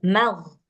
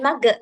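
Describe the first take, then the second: First: It ends with a throaty gh sound. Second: It ends with a hard g sound. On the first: The speaker calls it right. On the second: The speaker calls it wrong.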